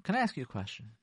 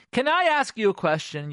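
First: Said in the usual way. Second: Higher, louder pointed question; accusing question. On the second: Shown as a demonstration. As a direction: ask it like an accusation. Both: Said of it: "Question, criticism".

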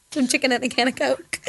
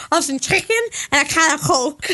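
First: Said in the usual way. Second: Giggly mock Scouse; Scouse accent. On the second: Shown as a demonstration. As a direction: put on a Scouse accent with a laugh in it.

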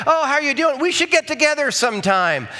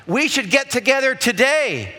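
First: High, sing-song casual greeting; breezy acquaintance. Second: High, emphatic friendly offer; genuine invitation. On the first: Acquaintance passing in the church hallway, breezy insincere greeting. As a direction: toss off an empty, friendly invitation. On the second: Someone making a real offer to meet, keen invitation. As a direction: invite them eagerly, landing on "today". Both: Acted.

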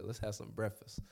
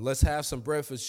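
First: Quietly savoring the line; hushed, fond echo; soft, relished repeat. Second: Said in the usual way. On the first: Retold or imitated. Pastor savoring Jesus's words, softly echoing them. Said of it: "That's my type of Lord". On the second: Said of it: "Jesus said to them".

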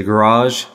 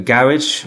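First: The American "garage", long ah and zh at the end. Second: "garage" said the British way, GARR-idge, stress on the first syllable; the British "garage" rhyming with carriage. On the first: Preacher mimicking how Americans say garage. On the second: Preacher giving the British word garage before the American one. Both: Shown as a demonstration. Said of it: "or as the Americans would say".

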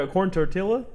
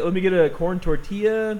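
First: "tortilla" with a hard L, as tor-till-a; anglicized tortilla. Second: "tortilla" with a y sound for the double L; slowly order, pronouncing "tortilla" as tor-tee-ya; careful Spanish-style ending on "tortilla". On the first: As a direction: say "tortilla" with an English L sound. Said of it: "even I do right there". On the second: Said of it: "say the whole thing in the accent or none of it". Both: Shown as a demonstration.

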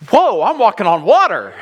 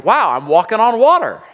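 First: Alarmed whoa. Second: Excited wow. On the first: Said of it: "And then he goes". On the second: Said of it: "He's like". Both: Retold or imitated.

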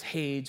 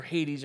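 First: "Hades" said as one syllable, "haydz"; "Hades" with a silent e. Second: "Hades" said "HAY-deez"; "Hades" in two syllables, stress first. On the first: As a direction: rhyme "Hades" with "blades". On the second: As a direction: end "Hades" on a long "deez". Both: Shown as a demonstration. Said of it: "however you wanna say it".

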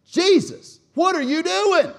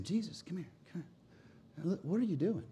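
First: High, very loud scolding shout; harsh rebuke. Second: Soft, discreet aside; mild suggestion. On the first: Peter pulls Jesus aside, harshly rebuking him. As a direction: scream at him in outrage. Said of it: "This was a harsh rebuke". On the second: Peter pulling Jesus aside, mild and hushed. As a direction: take him aside and gently question him. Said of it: "This was not some mild suggestion". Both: Acted.

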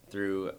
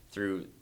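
Both takes have the same delivery.

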